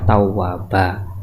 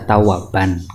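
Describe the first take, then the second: First: The word ends on an open vowel. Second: The word ends with an n sound. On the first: The speaker calls it right. "itu kita baca tawwaba karena apa? Mad iwad" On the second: The speaker calls it wrong. "harusnya kan dibaca tawaban karena ada fathah tain"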